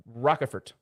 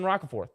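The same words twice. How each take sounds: First: Rockefort, said ROCK-eh-fort with a changed emphasis; corrected pronunciation. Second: Roccaforth said the usual way, stress on ROC; plain reading of Roccaforth, rock-a-FORTH; first pronunciation. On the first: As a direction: try Rockefort, different stress, the ending as fort. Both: Shown as a demonstration. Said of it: "putting some different emphasis".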